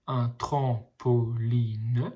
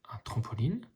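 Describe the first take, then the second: First: Very slow, split into syllables; slowly sounding out each syllable. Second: Said in the usual way. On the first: Shown as a demonstration. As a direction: sound out tram-po-line for a child. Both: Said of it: "les petits ponts vous aident à lire".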